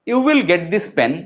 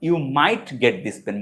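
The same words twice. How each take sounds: First: Slow, certain, stress on "will"; sure will. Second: Slow, tentative, stress on "might"; "might" leaned on slowly, sounding unsure. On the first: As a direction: land "will" firmly and confidently. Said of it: "এর থেকেও বেশি মানে sure যদি বলি". ("will" শব্দে দৃঢ় জোর, নিশ্চিত সুরে ধীরে) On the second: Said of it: "কিন্তু আমি যদি বলি". ("might" শব্দে জোর, দ্বিধার সুরে ধীরে) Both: Shown as a demonstration.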